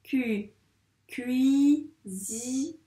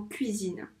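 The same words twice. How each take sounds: First: "Cu-, cuisine" broken into long, separate syllables. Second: Said in the usual way. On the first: Shown as a demonstration. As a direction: stretch each syllable of "cuisine", cui, zi, ne, with gaps. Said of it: "la deuxième syllabe du mot cuisine". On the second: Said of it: "la deuxième syllabe du mot".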